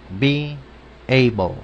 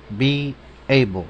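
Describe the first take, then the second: First: "be able" split by a clear pause; word by word. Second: "be able" drawn out slowly as a whole phrase; slow model phrase. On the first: Teacher models the verb for learners, "be able" in separated words. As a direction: sound out "be", pause, then "able". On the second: Teacher repeats the verb for learners, "be able" slowly modelled. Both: Shown as a demonstration.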